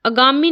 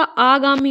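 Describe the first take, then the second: First: आगामी opening on a short "a", as "agaami"; mispronunciation demo. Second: आगामी with a long opening "aa"; correct pronunciation. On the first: Teacher showing the mistake, आगामी with a short first vowel. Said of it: "आगामी नहीं होता". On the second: Teacher correcting students, आगामी with long first aa. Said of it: "आगामी होता है". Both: Shown as a demonstration.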